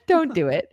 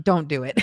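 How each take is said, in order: First: Repeated through a real laugh, a bit higher. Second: Said in the usual way. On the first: Real, not acted. Repeating her advice to younger self, laughing. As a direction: chuckle the warning out.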